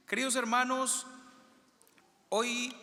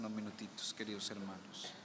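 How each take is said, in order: First: Projected greeting. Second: Soft, low opening words, hard to hear; quiet opening greeting; barely audible greeting. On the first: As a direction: call out to the whole congregation. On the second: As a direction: murmur the greeting softly. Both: Real, not acted. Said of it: "dicen que no se escucha".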